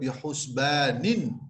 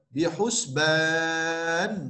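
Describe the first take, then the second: First: The word ends with an extra vowel sound. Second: The word ends on a stopped consonant. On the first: The reading continues into the next word. The speaker calls it wrong. "Kita tidak baca bihusbanin" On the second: The reading stops at this word. The speaker calls it right. "Bihusban bacaan dia"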